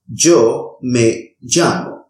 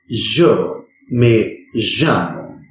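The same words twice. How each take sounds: First: The y and ll are harsh, g-like sounds. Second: The y and ll are buzzing, vibrant sounds. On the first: "pronounce this sound as a harsh G sound" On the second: "pronounce it as a vibrant sound"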